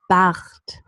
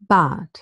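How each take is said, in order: First: The R is a friction sound in the throat. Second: The R becomes a vowel sound. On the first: "With the pre-uvular or uvular fricative" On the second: "replacing the R by a deep schwa"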